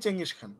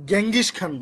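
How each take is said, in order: First: The name starts with a ch sound. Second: The name starts with a hard g sound. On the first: This is the actual pronunciation. The speaker calls it right. "এটার উচ্চারণই চেঙ্গিস Khan" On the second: It is said this way to remember the spelling. The speaker calls it wrong. "বানান ঠিক রাখার জন্য বলবেন"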